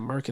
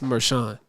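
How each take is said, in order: First: The middle consonant is a hard k sound. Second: The middle consonant is a soft sh sound. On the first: The speaker calls it wrong. "that's not how you pronounce that" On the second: The speaker calls it right. "It's Mershon"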